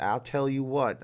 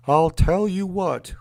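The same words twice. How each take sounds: First: Put-on mild, drawn-out Texas accent; lightly voiced Texas catchphrase, slow. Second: Loud, slow, higher Texas cartoon dad; Hank Hill. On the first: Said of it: "if that's a Texas type accent". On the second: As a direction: belt out a hammed-up Texan catchphrase. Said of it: "I'll do a Hank Hill".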